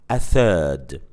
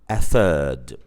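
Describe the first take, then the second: No difference in how they are said.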